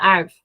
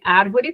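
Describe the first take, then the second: First: The word is said with a syllable dropped. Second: The word is said with all its syllables. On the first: "para árvore" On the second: "redução de árvore"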